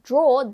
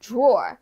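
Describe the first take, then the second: First: The word ends with no r sound. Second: The word ends with an added r sound. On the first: "instead of draw" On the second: "they say drawer"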